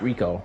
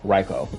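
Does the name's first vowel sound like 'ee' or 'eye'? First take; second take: ee; eye. First: The first vowel sounds like 'ee'. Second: The first vowel sounds like 'eye'. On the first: The speaker calls it wrong. "Not Rico" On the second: The speaker calls it right. "is that's how I pronounce it"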